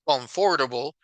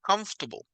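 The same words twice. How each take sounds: First: Every written syllable is pronounced fully. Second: It is said fast with a syllable dropped. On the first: The speaker calls it wrong. "I know that is the word is written comfortable, but in reality ... they don't say comfortable" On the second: The speaker calls it right. "When they speak fast, they say comfortable"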